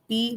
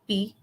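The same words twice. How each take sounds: First: The pitch stays level in the middle. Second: The pitch stays low. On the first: It means grind. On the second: It means drink. "low tone"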